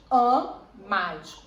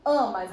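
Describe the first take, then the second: First: "Am, mais" in two detached syllables, AM louder; syllable separation. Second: Said in the usual way. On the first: Shown as a demonstration. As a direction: break "Am, mais" apart with a clear pause after Am. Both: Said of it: "separa amas?".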